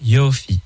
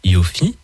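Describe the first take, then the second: First: The stress is on the first syllable. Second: The stress is on the second syllable. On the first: The speaker calls it right. "avec l'accent tonique sur la première syllabe" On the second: The speaker calls it wrong. "et pas Yofi"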